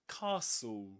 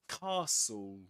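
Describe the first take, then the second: First: The T sound in the middle is silent. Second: The same.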